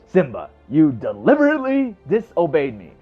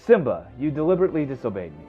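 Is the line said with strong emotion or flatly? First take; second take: strong emotion; flatly. First: It is said with strong, falling emotional emphasis. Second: It is said flatly, with little emotion.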